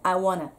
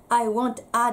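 First: The words are run together into one unit. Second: Each word is said separately, without linking. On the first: The speaker calls it right. "ここはリエゾンしてくださいよ。" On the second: The speaker calls it wrong. "I want a ではなくて"

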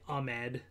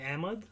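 First: The name is said with an American pronunciation. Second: The name ends in a 'mud'-like syllable. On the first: "a lot of people just say Ahmed, you know, as kind of the American way of saying it" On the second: "we sort of say Ahmed, Ahmed for like kind of the Pakistani style"

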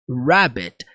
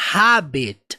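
First: The word starts with an English curled r sound. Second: The word starts with a breathy h-like sound. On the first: The speaker calls it right. "mas rabbit, rabbit. ... R lá para dentro" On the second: The speaker calls it wrong. "a pronúncia não necessariamente é habit"

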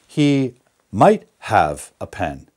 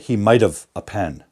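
First: The word have is pronounced fully and clearly. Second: The word have is reduced into might've. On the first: The speaker calls it right. "Don't contract that, because we need to hear the main verb" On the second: The speaker calls it wrong. "Don't say"

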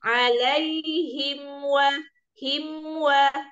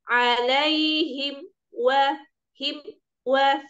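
First: Him flows into wa without a break. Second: A short break separates him from wa. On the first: The speaker calls it right. "Jadi harus" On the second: The speaker calls it wrong. "jangan diputus gini maksudnya. Seperti ada jeda itu nggak boleh"

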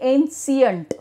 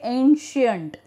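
First: The middle consonant is not an sh sound. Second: The middle consonant is an sh sound. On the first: The speaker calls it wrong. "We don't say ancient" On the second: The speaker calls it right. "we say ancient, SH"

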